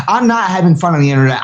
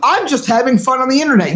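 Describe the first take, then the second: First: Said in the usual way. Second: Raised, airy mock-casual voice; lightly mimicked carefree voice; mocking quote. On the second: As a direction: parody a lazy hobbyist. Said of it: "If you're just like".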